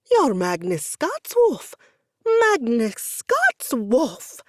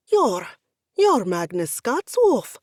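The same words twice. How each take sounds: First: Loud, slow, higher starstruck repetition; stunned fan, close to passing out; near-faint fan squeal. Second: Loud, slow starstruck stammer; louder sputtering fan. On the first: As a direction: drag out the name in awe. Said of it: "only a few registers below that of a prepubescent girl". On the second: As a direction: stumble over the name in awe. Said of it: "Pavio sputtered". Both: Acted.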